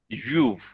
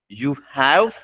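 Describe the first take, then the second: First: It is joined into one syllable without h. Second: Both words are said fully, with the h sound.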